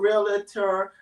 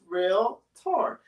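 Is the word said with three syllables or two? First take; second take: three; two. First: The word is said with three syllables. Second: The word is said with two syllables. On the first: The speaker calls it wrong. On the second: The speaker calls it right. "the word realtor only has two syllables"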